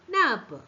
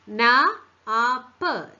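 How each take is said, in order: First: Said in the usual way. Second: "നാ, ആപ്പ്" slowly split into loud separate sounds; "നാ, ആപ്പ്" drawn out sound by sound. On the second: Shown as a demonstration. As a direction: stretch "നാ", pause, then "ആപ്പ്". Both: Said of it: "T pronounce ചെയ്യുന്ന".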